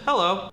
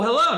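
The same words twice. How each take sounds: First: The greeting sounds cold and unfriendly. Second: The greeting sounds warm and friendly.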